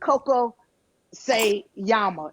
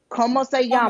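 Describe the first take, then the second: First: The first word is said as 'Coco'. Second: The first word is said as 'Como'. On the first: The speaker calls it wrong. "not Coco se llama" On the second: The speaker calls it right. "It's Como"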